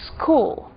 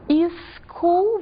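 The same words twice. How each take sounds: First: The word has no extra vowel sound added. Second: An extra vowel sound is added to the word. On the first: The speaker calls it right. "vamos dizer" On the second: The speaker calls it wrong. "não vamos dizer"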